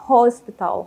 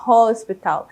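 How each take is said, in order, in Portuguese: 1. A palavra é pronunciada do jeito inglês. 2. A palavra é pronunciada do jeito inglês.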